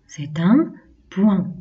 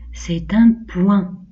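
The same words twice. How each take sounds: First: Slow, falling, settled "point"; slow falling repeat. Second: Slow repeat for the class; slow model phrase. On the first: Teacher repeats for pupils, slow falling tone. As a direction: close it with a firm fall. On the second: Teacher has pupils repeat, slow and clear. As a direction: spell it out slowly for children. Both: Shown as a demonstration. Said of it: "On répète".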